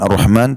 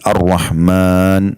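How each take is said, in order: First: The vowel in the last syllable is short. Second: The vowel in the last syllable is lengthened. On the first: The speaker calls it wrong. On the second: The speaker calls it right. "setelah mim ada alif"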